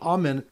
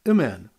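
First: The first vowel is a full open a. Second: The first vowel is a short reduced sound. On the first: The speaker calls it right. "instead of Amen" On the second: The speaker calls it wrong. "pronounced with the Shiva instead of a Kamatz Gadol"

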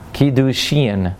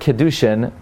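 First: The last syllable has a long 'ee' vowel. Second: The last syllable has a short 'ih' vowel. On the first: The speaker calls it right. "not an I sound, it's an E sound" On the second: The speaker calls it wrong. "you're pronouncing it incorrectly"

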